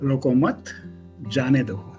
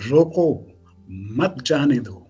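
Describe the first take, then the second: First: The pause comes after 'मत'. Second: The pause comes after 'रोको'.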